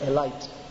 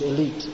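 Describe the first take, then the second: First: It is said with an Indian pronunciation. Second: It is said with the standard pronunciation. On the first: "in India they say elite" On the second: "Actually the pronunciation is elite"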